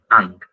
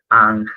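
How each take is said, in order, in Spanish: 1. La palabra termina en un sonido k. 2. La palabra termina en un sonido gutural áspero. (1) "En inglés vamos a ver que le dicen Ankh" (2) "tienen el signo de la correspondiente al sonido de la N y al sonido de la J"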